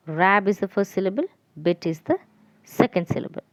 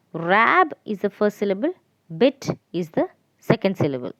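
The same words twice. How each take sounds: The two takes are said the same way.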